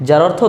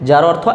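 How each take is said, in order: No difference in how they are said.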